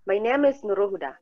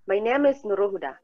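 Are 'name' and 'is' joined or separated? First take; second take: joined; joined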